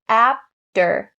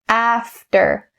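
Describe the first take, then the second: First: The middle consonant is a p sound. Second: The middle consonant is a clear f sound. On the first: The speaker calls it wrong. "Don't say after. Don't make that p, p sound" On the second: The speaker calls it right. "Make sure that f, f is clear"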